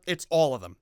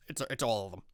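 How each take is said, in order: First: Said in the usual way. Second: Much lower and much softer, under the breath; quiet repeat. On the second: Shown as a demonstration. Host repeating the punchline to viewers, much lower and softer. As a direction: drop it under your breath as a deadpan aside.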